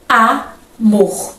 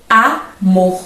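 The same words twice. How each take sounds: First: Amor drawn out as A-mor with falling end; syllable demo. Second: Amor split as a-mor; sounded out. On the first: Teacher repeating Amor for class in two beats. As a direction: sound out Amor in two pulses. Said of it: "Veja que o A é uma vogal". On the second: Teacher showing students the two syllables of amor. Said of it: "em que eu pronuncio". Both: Shown as a demonstration.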